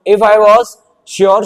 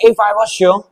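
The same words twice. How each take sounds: First: Very slow, drawn out if I was sure; teacher reading out the sentence very slowly; slow dictation. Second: Said in the usual way. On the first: Shown as a demonstration. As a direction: dictate if I was sure word by word so students can write. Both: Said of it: "अब मैंने यहाँ पे लिख दिया".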